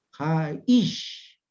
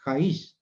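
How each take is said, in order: First: "Jaish" split as ja-ISH, long punched "ish"; final-syllable stress. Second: "jaish" run together quickly, without the stress on final "ish"; wrong-stress demo. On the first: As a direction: land hard on the last syllable of "Jaish" and stretch it. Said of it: "la pronunciación al final". («Jaish» con acento fuerte y alargado en la última: ja-ISH) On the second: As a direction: say "jaish" as one short word, accent off the last syllable. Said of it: "Y no decimos". («jaish» corto y junto, sin acento en la última sílaba) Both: Shown as a demonstration.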